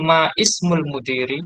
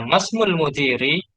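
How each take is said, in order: First: The initial i of ismul is pronounced separately. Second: The words run together without the initial i. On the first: The speaker calls it wrong. "Tidak boleh ma ismul mudiri" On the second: The speaker calls it right. "Ya, masmul mudiri"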